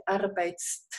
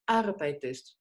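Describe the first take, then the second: First: "arbeitst" squeezed with no vowel between the "t" sounds; wrong form. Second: "Arbeitest" with a clear extra e before "st"; phonetic e added. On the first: Teacher shows students the unpronounceable wrong form "arbeitst". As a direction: say "arbeitst" as one cramped cluster. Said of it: "no podemos decir arbeitst". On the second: Teacher gives students the correct form "Arbeitest" with a phonetic e. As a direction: say "Arbeitest" with a phonetic e, "ar-bei-test". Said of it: "Agregamos una E fonética". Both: Shown as a demonstration.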